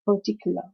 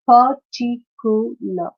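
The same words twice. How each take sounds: First: Said in the usual way. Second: "Particular" slowly as par-ti-cu-lar; syllable by syllable. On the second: Shown as a demonstration. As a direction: break "Particular" into four parts. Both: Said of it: "this is a four-syllabic word".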